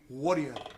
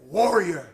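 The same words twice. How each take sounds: First: Warrior is said with a South African accent. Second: Warrior is said with an American accent. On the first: "in South African it can be warrior" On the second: "sounds very American"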